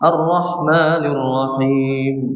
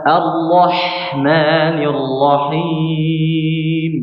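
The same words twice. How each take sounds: First: The h sounds are short with little breath. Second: The h sounds carry an audible flow of breath. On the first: The speaker calls it wrong. "tidak salah tapi tidak sempurna" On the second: The speaker calls it right. "maka haknya di dialihkan nafasnya"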